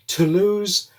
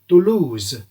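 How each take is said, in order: First: It is said with an English accent. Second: It is said with a French accent. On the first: "English style" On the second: "French style"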